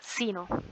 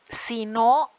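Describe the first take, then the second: First: It is said joined, in one go. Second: It is said as two separate words. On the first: It is the noun meaning fate or destiny. "de una, pegado, ¿verdad? De una sola vez" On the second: It means 'if not', introducing a condition. "Ese no es la misma pronunciación"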